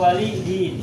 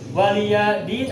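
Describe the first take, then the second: First: The pronoun is said as short li only. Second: The pronoun is said with an added ya sound. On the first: "dibaca li saja juga boleh" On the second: "Dibaca lia boleh"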